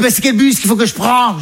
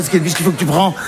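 First: Higher-pitched mum asking a question; imitated mother. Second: Said in the usual way. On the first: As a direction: ask it in the raised mother voice. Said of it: "Elle dit". (voix haute de la mère imitée) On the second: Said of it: "Je sais pas".

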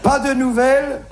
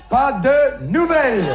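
First: Said in the usual way. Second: Slow proverb. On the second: Shown as a demonstration. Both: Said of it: "les Chinois disent".

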